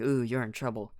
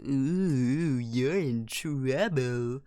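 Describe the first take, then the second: First: It is said in a normal voice. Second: It is said in a silly put-on voice.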